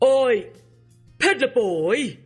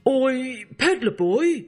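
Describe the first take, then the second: First: It is called out as loudly as possible. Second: It is said a little louder. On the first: The request turns into a threat. "called out in his loudest voice" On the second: The request is repeated more insistently. "this time a little louder"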